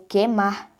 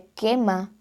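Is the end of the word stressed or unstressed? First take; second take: stressed; unstressed. First: The end of the word is more stressed. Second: The end of the word is not stressed.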